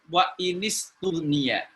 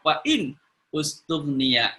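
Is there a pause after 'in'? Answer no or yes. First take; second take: no; yes. First: The words run together without a pause. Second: There is a stop after 'in' before the verb. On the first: "kalau dibaca langsung" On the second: "kalau dibaca wakaf"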